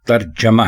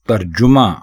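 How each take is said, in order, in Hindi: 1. j के बाद का स्वर 'a' है। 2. j के बाद का स्वर 'u' है। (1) "बल्कि तर्जमा है; जीम के ऊपर पेश नहीं है बल्कि जीम के ऊपर जबर है" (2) "ये लफ्ज़ तर्जुमा नहीं है"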